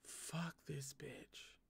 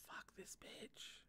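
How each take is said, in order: First: Very soft, slow curse under the breath; muttered curse. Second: Slow breathy whisper, no voice at all; whispered curse. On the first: Fed-up reader cursing the villain under her breath. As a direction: drop the voice and grumble it slowly. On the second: Reader whispers her curse at the villain again. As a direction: whisper the curse slowly through the teeth. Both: Real, not acted.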